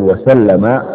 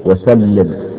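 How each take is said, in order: First: وسلم as "wa-sallama", doubled l followed by an a; past-tense وسلم, pronounced wa-SAL-la-ma; fatha on the lam. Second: وسلم as "wa-sallim", doubled l followed by an i; kasra on the lam. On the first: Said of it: "بفتح اللام مع التضعيف". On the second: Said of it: "أو بكسرها مع التضعيف". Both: Shown as a demonstration.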